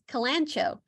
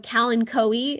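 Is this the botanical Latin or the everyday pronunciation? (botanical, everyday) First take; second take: everyday; botanical. First: The word is said in its everyday form. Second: The word is said in botanical Latin form. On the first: "everyone still says kalancho" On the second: "kalanchoe is the proper way of saying it"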